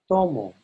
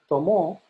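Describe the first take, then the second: First: The stress is on the first syllable. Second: The stress is on the second syllable. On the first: I drink. "Notice that to is a little bit louder than mo" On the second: He or she drank. "So it's not tomo. ... That means he or she drank"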